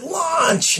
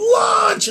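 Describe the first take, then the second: First: High-pitched yell, held back in volume; mock power-word yell, not full force; retold yell. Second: Loud, high-pitched power-word yell; all-out yell. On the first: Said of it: "And I yelled it". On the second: Retold or imitated. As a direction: yell it as loud as you can. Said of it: "and I yelled".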